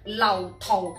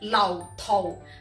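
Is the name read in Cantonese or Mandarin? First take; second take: Cantonese; Cantonese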